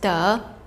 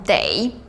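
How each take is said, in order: First: The word is said with a plain e vowel. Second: The word is said with an ei vowel. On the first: It means to get or obtain. "they can also be pronounced as the" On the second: It means must or have to. "Apart from they"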